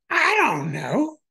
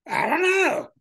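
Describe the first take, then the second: First: Slow, higher, unsure rising shrug; hesitant mock Dylan. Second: Much higher, squeezed falling shrug; exaggerated mock Dylan. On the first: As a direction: drag it out as if puzzled. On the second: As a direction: toss it off with a high sigh. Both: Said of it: "they can't answer their stupid questions".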